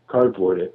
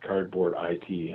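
First: The ending is said as the word 'it'. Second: The ending is spelled out as letters I-T. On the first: The speaker calls it right. "which is nice that you said it correctly" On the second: The speaker calls it wrong. "a lot of people ask me if it's Cardboard IT"

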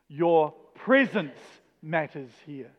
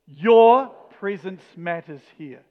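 First: The stress falls on the word 'presence'. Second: The stress falls on the word 'your'. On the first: "each time we're going to put the emphasis on the next word" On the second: "each time we're going to put the emphasis on the next word"

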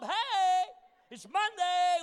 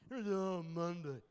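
First: It is said in an upbeat, positive tone. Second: It is said in a gloomy, miserable tone.

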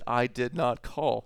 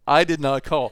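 First: It is said in a plain reading tone. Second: It is said in an exasperated parent's tone.

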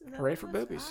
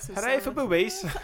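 First: It is said in the speaker's ordinary accent. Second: It is said in a put-on British accent.

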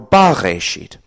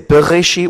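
First: The first syllable has an a vowel. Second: The first syllable has an e vowel. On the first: This reading means in the beginning. "Bareshit means in the beginning" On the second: This is the traditional reading of the word. "which is the tradition we have"

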